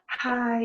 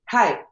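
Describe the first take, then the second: First: It is said in a soft, gentle way. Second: It is said with a tough, bold attitude.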